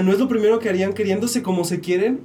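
It is said as a question, rising.

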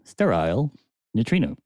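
It is said in an English accent.

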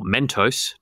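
It is said with an American pronunciation.

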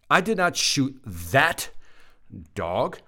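The voice falls at the end. The speaker is stating something. "I shot the other one"

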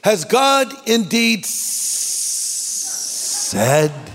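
It is said in a hissing, snake-like voice.

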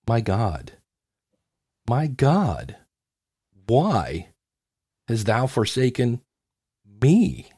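It is read with long dramatic pauses.

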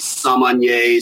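It is said in an American way. "in the U.S., ... So we say"

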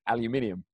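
It is said the British way, five syllables. "or as English we say"

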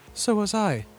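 It sounds sad and betrayed.

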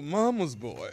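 It is said in a put-on British accent.

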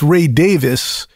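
The surname sounds like Davis. "in the UK"

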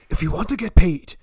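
It is said in a put-on character voice.

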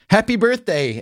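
It is said brightly, with exaggerated enthusiasm. The speaker calls it right. "Was that good fake enthusiasm?"

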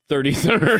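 The th sounds are said clearly as th. "I don't do turdy turd"

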